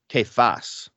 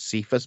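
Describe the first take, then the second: First: The name begins with a k sound. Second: The name begins with an s sound. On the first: The speaker calls it right. "I've been pronouncing it wrong my whole life" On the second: The speaker calls it wrong. "the way I've always pronounced this was Cephas"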